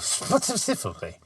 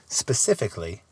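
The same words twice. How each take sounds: First: The word is slurred with a lisping sound. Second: The word is said clearly without slurring. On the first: The speaker calls it wrong. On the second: The speaker calls it right.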